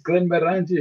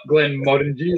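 First: "Glenmorangie" as glen-muh-RAN-jee; higher "Glenmorangie" with stress moved to "ran"; other pronunciation. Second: "Glenmorangie" with "MOR" stressed, rest light; corrected version. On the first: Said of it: "or the other way around". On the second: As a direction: say "Glenmorangie" as glen-MOR-un-jee. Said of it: "It's not Glenmorangie". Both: Shown as a demonstration.

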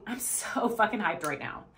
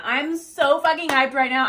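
First: Said in the usual way. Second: Louder, punchy hype; hyped up. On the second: Shown as a demonstration. Coach modelling affirmation number three, hyped up. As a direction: pump yourself up with it.

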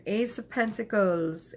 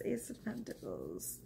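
First: Said in the usual way. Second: "Ace of Pentacles" repeated much softer, almost breathed; near-whispered repeat. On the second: Real, not acted. Tarot reader softly repeating the card name to viewers, hushed. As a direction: drop to a hush on "Ace of Pentacles".

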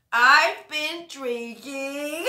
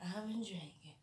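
First: Much louder and slow, stretching every word; big drawn-out confession. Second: Much softer, almost under the breath; hushed confession. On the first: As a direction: announce it like a grand reveal. First take, drawn out and loud. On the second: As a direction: let it slip out quietly, like a secret. Second take, dropped to near whisper. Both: Acted.

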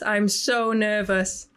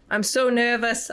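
First: Stretched-out nervous words; slow, drawn out; slow nervous drawl. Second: Said in the usual way. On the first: Real, not acted. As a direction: drag it out slowly.

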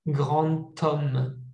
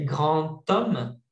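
First: Grand homme with the d of Grand sounded as a t; Grand t-homme, linked; liaison demo. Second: Grand homme with the d of grand sounded as a t before homme; liaison demo. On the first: Teacher repeats the d-to-t liaison for students. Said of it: "c'est un T". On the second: Teacher shows students the d-to-t liaison. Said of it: "es lo que les decía". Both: Shown as a demonstration.

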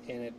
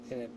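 The two takes are said the same way.

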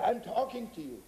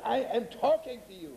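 First: Higher-pitched, insistent call; raised pitch, pressing for a reply; insistent retold address. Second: Higher-pitched, more forceful demand; hammed-up yell for an answer; mock yell. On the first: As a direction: address someone who is not answering. Quoted man addresses silent listener, then repeats. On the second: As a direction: pretend to yell at someone ignoring you. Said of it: "when it hurts, you begin to yell".

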